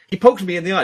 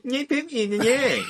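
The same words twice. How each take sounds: First: Higher, louder whining complaint to the ref; whiny complainer. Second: High, laughing mockery of the complaint; mocking repeat. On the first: Retold or imitated. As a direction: whine like a fighter tattling on his opponent. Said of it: "if they're like". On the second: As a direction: parrot him back like a schoolyard taunt. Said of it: "just mockingly repeat what they say".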